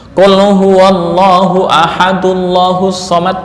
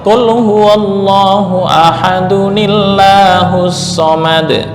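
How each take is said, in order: First: Ahadu runs straight into llahus without an n. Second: An added n-i sound links ahadu to llahus. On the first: The speaker calls it wrong. "Qul huwallahu ahadullahus somad malah fatal" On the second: The speaker calls it right. "dikasih tanda nun kecil"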